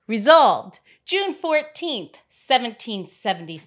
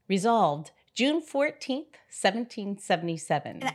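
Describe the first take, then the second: First: It is read forcefully with more authority. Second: It is read softly with little force. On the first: The speaker calls it right. "I'll just take it as a strong woman instead" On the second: The speaker calls it wrong. "thou hast the sweetest voice"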